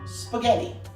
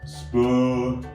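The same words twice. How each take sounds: First: It is said at a quicker pace. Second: It is said very slowly.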